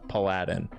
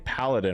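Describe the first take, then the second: First: It sounds like Aladdin with a P. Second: It does not sound like Aladdin. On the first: The speaker calls it wrong. "like Aladdin, but with a P in front of it" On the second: The speaker calls it right. "Instead of saying paladin"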